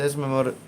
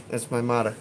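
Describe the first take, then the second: First: Said in the usual way. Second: "mother" said as "mah-da"; D in place of the TH in "mother"; Chicago-style "mother", ending in "-da"; "mada" pronunciation. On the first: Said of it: "I say T H". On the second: Shown as a demonstration. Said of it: "M A D A".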